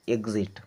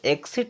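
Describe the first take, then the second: First: The x is sounded as gz. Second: The x is sounded as ks. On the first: The speaker calls it right. "बल्कि हम क्या पढ़ते हैं? एग्जिट" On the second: The speaker calls it wrong. "इसे एक्सिट नहीं पढ़ते हैं"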